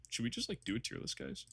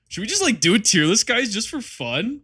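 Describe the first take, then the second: First: Soft, breathy whisper; whispered suggestion. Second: Much higher, pleading and slowing at the end; high excited pitch. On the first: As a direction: slip the idea in under your breath. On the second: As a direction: beg the chat like an eager kid. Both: Pretend.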